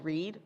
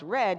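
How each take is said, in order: First: The vowel is long, rhyming with seed. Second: The vowel is short, rhyming with bed. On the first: It is the present tense of the verb. "which is the same word as read" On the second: It is the past tense of the verb. "it's also pronounced as read, meaning past tense of read"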